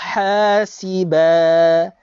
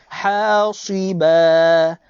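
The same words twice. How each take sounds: First: The s sound is light and thin. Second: The s sound is heavy and thick. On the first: "Kalau saya baca dengan huruf sin" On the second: "Kalau saya baca dengan huruf sad"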